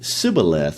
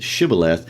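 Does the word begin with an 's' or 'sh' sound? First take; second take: s; sh. First: The word begins with a plain 's' sound. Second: The word begins with an 'sh' sound. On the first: The speaker comes from the defeated tribe. The speaker calls it wrong. "couldn't pronounce the S H sound, so they would pronounce it Sibboleth" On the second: The speaker comes from the winning tribe. The speaker calls it right. "instead of Shibboleth"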